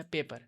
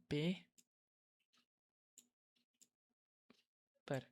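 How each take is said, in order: First: Said in the usual way. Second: पे and पर as two separate beats with a long pause between; split into syllables. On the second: Shown as a demonstration. Teacher splits the word paper into syllables, pausing between. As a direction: say पे, stop, then पर, showing the syllables. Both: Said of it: "देखो, मैं इसको दो बार में पढ़ रहा हूँ ना".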